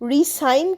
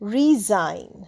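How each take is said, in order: First: The middle consonant is an s sound. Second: The middle consonant is a z sound. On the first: The speaker calls it wrong. "রিসাইন কিন্তু নয়" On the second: The speaker calls it right.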